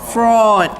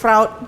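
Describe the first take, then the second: First: The vowel is a long 'o'. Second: The vowel sounds like 'ow'. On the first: The speaker calls it right. "the pronunciation is like F R O D" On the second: The speaker calls it wrong. "Why you are pronouncing as fraud?"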